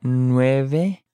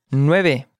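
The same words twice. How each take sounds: First: "Nueve" in two long syllables; slow model. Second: Said in the usual way. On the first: Shown as a demonstration. Teacher modelling vocabulary for learners, slow "Nueve".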